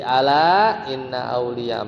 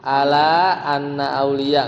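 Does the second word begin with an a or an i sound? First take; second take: i; a. First: The second word begins with an i vowel. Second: The second word begins with an a vowel. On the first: The speaker calls it right. "pasti setelahnya inna" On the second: The speaker calls it wrong. "nggak mungkin"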